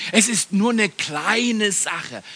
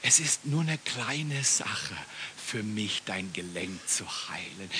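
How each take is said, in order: First: Full voice, drawn out word by word; slow emphatic repeat. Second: Slow and low, fading to a whisper; hushed inner voice. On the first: Preacher repeating God's thought to the congregation, slow and emphatic. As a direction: stretch "nur eine kleine Sache" slowly at normal volume. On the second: Preacher voicing the thought God gave him on the floor, hushed and slow. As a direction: let the thought sink softly into near silence. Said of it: "Gott gibt mir den Gedanken". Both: Retold or imitated.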